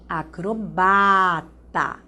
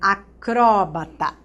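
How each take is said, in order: First: The stress falls on the syllable ba. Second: The stress falls on the syllable cro.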